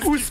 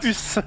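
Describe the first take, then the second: First: The vowel is a back rounded 'oo' sound. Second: The vowel is a front rounded French 'u'. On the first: The speaker calls it right. "On dit ous" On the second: The speaker calls it wrong. "pas us"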